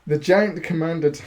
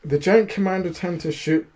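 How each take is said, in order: First: Words broken by a laugh. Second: Said in the usual way. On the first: Real, not acted. Reader cracks up mid-sentence at his own reading, laughing. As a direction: read through a fit of giggles. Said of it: "what am I doing?". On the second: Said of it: "Stop thinking like that".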